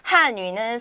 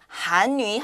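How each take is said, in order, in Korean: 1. 첫 음절은 4성으로 발음합니다. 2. 첫 음절은 2성으로 발음합니다. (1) "한유는 사성" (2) "한유 한국어는 이성"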